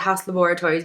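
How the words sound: The name is said in a posh accent. It matches the owner's refined image. "I feel like I have to say Haus Laboratories because it's [name] and she's very like posh"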